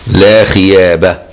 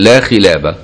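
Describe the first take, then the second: First: The second word is said with a Y sound instead. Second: The second word is said with a clear L sound. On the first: "يعني مش خلابة كان ألدغ" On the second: "يعني لا خديعة"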